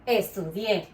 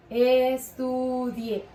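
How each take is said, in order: First: Said in the usual way. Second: "Estudié" drawn out very slowly; slow classroom demonstration of "Estudié"; stretched syllables. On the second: Shown as a demonstration. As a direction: model "Estudié" syllable by syllable, holding each vowel. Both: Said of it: "fuerza de voz en la última sílaba".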